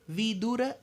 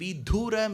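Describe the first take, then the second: First: No syllable is given heavy stress. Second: One syllable is given heavy stress. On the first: It means wise. The speaker calls it right. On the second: It means widower. The speaker calls it wrong.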